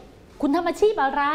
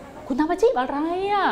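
First: Slowed, higher questioning voice; slow model question; asking the question. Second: Slowed, higher questioning voice; asking the question. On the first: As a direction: ask it slowly like a model question. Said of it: "ใช่ไหม พอถาม". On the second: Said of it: "พอถาม". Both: Shown as a demonstration.

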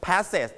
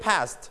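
First: "passes" with a separate second syllable; wrong extra syllable. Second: "past" as one syllable ending in a light T; light final T. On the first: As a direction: say "passes" as two beats, voicing the ending as its own syllable. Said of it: "when you put E D you don't pronounce". (ออกเสียง "passes" ผิดเป็นสองพยางค์) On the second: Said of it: "ให้มี ถ เบาๆ". (ออกเสียง "past" พยางค์เดียว มี ถ เบาๆ ท้ายคำ) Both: Shown as a demonstration.

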